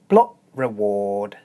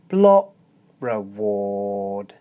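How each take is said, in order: First: The phrase is said at a normal pace. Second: The phrase is said very slowly.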